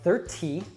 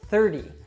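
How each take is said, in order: First: The middle consonant is a crisp true T. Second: The middle consonant is a soft D sound. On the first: The speaker calls it wrong. "it's not thirty" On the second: The speaker calls it right. "an American T, which sounds like a soft D"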